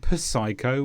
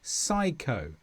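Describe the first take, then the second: First: The word begins with a sounded P. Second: The word begins with an S sound, no P. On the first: The speaker calls it wrong. "We don't say psycho" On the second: The speaker calls it right. "we say psycho"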